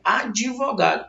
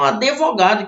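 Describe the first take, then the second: First: "advogado" as "ad-vogado", only a light i-glide after the D; standard pronunciation. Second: "advogado" with an E inserted after the D, "a-de-vogado"; regional wrong pronunciation. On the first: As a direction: say "advogado" carefully as "adivogado", no E. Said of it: "Mas o certo é". ("advogado" pronunciado "ad(i)vogado", sem E depois do D) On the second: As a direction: say "advogado" as "adevogado". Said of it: "que é errado". ("advogado" pronunciado "adevogado", com E depois do D) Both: Shown as a demonstration.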